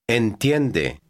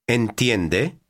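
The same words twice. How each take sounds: First: The voice falls at the end. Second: The voice rises at the end.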